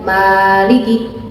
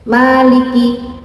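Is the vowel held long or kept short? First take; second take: long; short. First: The vowel is held too long. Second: The vowel is kept short, two beats. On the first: The speaker calls it wrong. "tidak dibaca Maliki, terlalu panjang" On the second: The speaker calls it right. "Maliki dibaca dua harokat"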